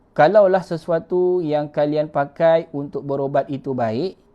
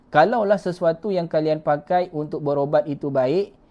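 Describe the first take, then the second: Both takes have the same delivery.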